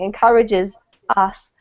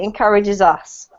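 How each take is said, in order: First: The two words are said separately. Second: The two words are joined together. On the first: "Instead of saying" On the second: "they'll squish the two together"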